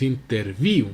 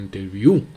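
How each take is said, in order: First: "interview" said the wrong way, as the teacher rejects it; wrong stress demo. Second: "interview" said louder, as the correct form; correct stress demo. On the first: Teacher showing students the wrong way to say "interview". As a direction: show the mistaken stress on "interview". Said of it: "no es interview". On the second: Teacher modelling the right "interview" for the class. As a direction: model "interview" clearly and firmly. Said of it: "sino interview". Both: Shown as a demonstration.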